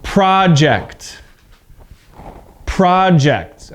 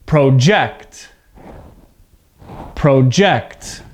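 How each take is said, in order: First: Deliberate noun project with an open vowel and strong beginning; stress on first syllable. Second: Deliberate verb Project with the voice lifting on JECT; stress on second syllable. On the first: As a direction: project as PRAH-ject, punched first syllable. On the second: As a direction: Project as pro-JECT, low start and punched JECT. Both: Shown as a demonstration. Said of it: "you can hear the difference in my voice".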